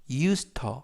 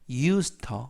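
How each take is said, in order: The two takes are said the same way.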